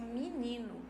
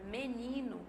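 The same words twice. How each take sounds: First: The first vowel is raised to an i sound. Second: The first vowel is a mid e sound.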